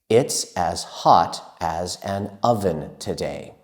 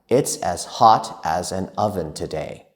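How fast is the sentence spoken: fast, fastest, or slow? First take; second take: slow; fast. First: It is spoken at a slow pace. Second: It is spoken at a faster pace. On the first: "Let's practice saying that together" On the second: "And now, faster"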